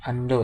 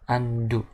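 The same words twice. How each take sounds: First: The word is read as it is spelled. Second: The word is read with English-style vowels. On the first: The speaker calls it wrong. "ini bukan undo ya" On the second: The speaker calls it right. "tapi dibacanya adalah undo"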